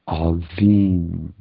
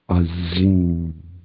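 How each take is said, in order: First: The middle consonant is a soft 'dh' sound. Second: The middle consonant is a buzzing 'z' sound. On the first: "like a DH sound or a TH sound" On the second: "or Azim"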